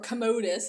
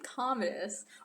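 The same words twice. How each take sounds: First: The name is said to echo the word commode. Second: The name does not echo the word commode.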